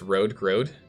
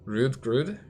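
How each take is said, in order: First: The vowels sound like a long oh. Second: The vowels sound like a short oo. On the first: The speaker calls it right. "so it's an O, like dough" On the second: The speaker calls it wrong. "Is that an oo sound?"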